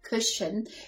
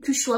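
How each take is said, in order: First: The word is said like standard English 'cushion'. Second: The word is said in a distorted, non-English way. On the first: The speaker calls it right. "normalement c'est une cushion" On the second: The speaker calls it wrong. "J'appelle ça une cuchua"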